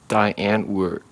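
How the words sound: It is said with an American accent. The speaker calls it wrong. "they say it a little bit funny because they can't say it right"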